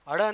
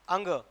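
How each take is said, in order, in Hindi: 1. यह अक्षर 'hada' की तरह बोला जाता है। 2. यह अक्षर नासिक्य 'ang' की तरह बोला जाता है। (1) "हड़ नहीं होता है" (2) "क्या होता है? अंग।"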